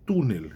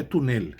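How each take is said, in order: First: "túnel" com tônica na primeira sílaba, TÚ-nel; tônica certa. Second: "túnel" com tônica na última sílaba, tu-NEL; tônica errada. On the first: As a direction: diga "túnel" forte no TÚ. ("túnel" pronunciado TÚ-nel, modelo correto) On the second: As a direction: diga "túnel" forçando a sílaba final. ("túnel" acentuado no fim, como erro) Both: Shown as a demonstration. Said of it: "a tônica tá na penúltima, não na última".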